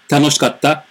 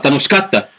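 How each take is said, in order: First: No syllable is pronounced with strong force. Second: The second-to-last syllable is stressed with strong force. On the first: "comparando com tanoshikatta" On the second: "eu estou pronunciando a palavra mais forte"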